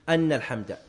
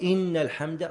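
First: The first word begins with an 'a' vowel. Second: The first word begins with an 'i' vowel. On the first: Praise is the reason for answering the call. "هذا على رواية الفتح" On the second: Praise belongs to God in general, unconditionally. "صار أعم"

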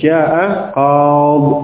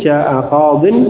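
First: The last word stops on a bare consonant. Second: The last word ends with an -in sound. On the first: The reader pauses and stops at this word. The speaker calls it right. "kalau waqaf dia menjadi" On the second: The phrase continues without a pause. The speaker calls it wrong. "tidak dibaca kasrah tanwin"

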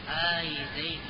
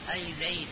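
First: The opening hamza vowel is lengthened. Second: The opening hamza vowel is short. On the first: "تمد الهمزة" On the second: "مقصورة"

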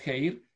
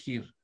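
First: The vowel is a diphthong, like ei. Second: The vowel is a plain ee sound. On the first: This is the old reconstructed pronunciation. "si es la antigua es geir" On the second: This is the modern pronunciation. "si es la moderna es gir"

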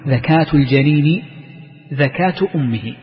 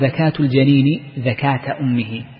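First: The second 'dhakat' ends in a u sound. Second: The second 'dhakat' ends in an a sound. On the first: The speaker calls it right. "مبتدأ وخبر" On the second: The speaker calls it wrong. "فينصبها على الحالية"

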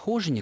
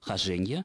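First: The stress is on the first syllable. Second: The stress is on the second syllable. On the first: The speaker calls it wrong. "ударение хожине, которое меня поразило ... представляется ошибочным" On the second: The speaker calls it right. "только с ударением на втором слоге"

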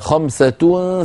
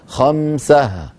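First: The word ends with a t sound. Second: The word ends with an h sound. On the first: The word is joined to the next word. "في الوصل" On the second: The speaker stops on this word. "فإذا وقفوا قالوا"

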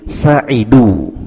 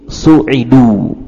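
First: The first syllable has the vowel a. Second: The first syllable has the vowel u. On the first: They were happy. "membaca dengan harakat fathah di huruf sin" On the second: They were granted happiness. "membaca dengan harakat dhammah di huruf sin"

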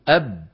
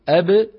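First: The final b stays closed with no release. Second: The final b is released with a slight bounce. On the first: "بدلا من أن يقولوا أب" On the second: "قالوا أب"

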